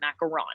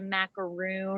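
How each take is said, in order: First: The last syllable sounds like 'ron'. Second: The last syllable sounds like 'roon'. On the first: "like you're saying Ron from Harry Potter at the end" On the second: "because we live in the South, um, I get a lot of macaroon"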